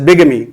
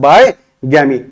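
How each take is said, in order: First: The word begins with 'big', said as bigamy. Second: The word begins with 'bye', split as bye-gamy. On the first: The speaker calls it right. "बिगमी बोलेंगे इसे" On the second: The speaker calls it wrong. "बाय गैमी नहीं"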